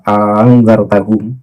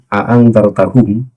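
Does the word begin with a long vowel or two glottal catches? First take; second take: long vowel; two catches. First: It begins with one glottal catch and a long vowel. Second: It begins with two separate glottal catches.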